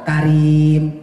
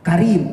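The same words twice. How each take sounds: First: The vowel is long and drawn out. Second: The vowel is short and quick. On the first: The speaker calls it right. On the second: The speaker calls it wrong.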